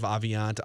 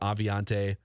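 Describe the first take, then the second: First: The name ends without a final vowel sound. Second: The name ends with a final vowel sound. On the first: "Are we pronouncing the, the E on the end of Aviant" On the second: "the E on the end"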